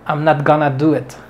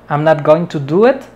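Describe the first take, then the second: First: Going to is reduced to one short word. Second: Going to is said as two full words. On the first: "aquí, gonna" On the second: "Y lo mismo que going to"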